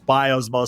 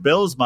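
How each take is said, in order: First: The first syllable sounds like 'bye'. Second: The first syllable sounds like 'bill'. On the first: The speaker calls it wrong. "in the hockey world ... it's Biosma" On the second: The speaker calls it right. "when you pronounced it Billsma"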